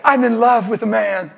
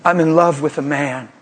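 First: Laughing repeat. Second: Said in the usual way. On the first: Retold or imitated. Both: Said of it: "He said".

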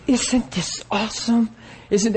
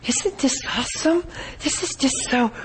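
First: Breathy-light, higher gushing voice, softer; flaky gushing lady. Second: Much higher, soft swooning gush rising on awesome; flaky swooning lady. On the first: Preacher imitates the flaky woman at the meeting, higher, softer gushing. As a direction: gush like someone swept away. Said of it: "she just got different". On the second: Preacher mocks the flaky lady's dreamy gushing, much higher and softer. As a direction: swoon over it, dreamy and airy. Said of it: "to me it was flaky". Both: Retold or imitated.

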